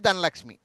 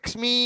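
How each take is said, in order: First: The final vowel is short and plain. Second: The final vowel is drawn out long. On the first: "మామూలుగా చెప్తే" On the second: "సాగదీస్తే"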